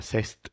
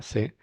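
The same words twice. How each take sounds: First: CEST with final st pronounced; mistaken sounded ending. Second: C'EST as plain "seh", no st; silent final consonants. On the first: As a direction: say "cest" as spelt, st audible. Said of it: "Tendemos a pronunciar". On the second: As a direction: say "c'est" ending on the vowel. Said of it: "No se pronuncia". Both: Shown as a demonstration.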